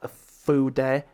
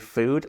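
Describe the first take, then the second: First: It does not sound like the English word food. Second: It sounds exactly like the English word food. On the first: "Some people say Fude" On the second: "Some people say food, like you eat"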